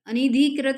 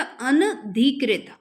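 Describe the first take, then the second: First: अनिधिकृत with an added i, "a-ni-dhi-krit"; mispronounced ANIDHIKRIT. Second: अनधिकृत slow and loud, "an-dhi-krit"; correct ANADHIKRIT. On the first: Teacher showing students the wrong word, अनिधिकृत said with "ni". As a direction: put "ni" in अनिधिकृत. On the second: Teacher correcting the word, अनधिकृत slow with a clean "an". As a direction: separate the अन in अनधिकृत, no i after न. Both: Shown as a demonstration. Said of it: "अनिधिकृत नहीं होता".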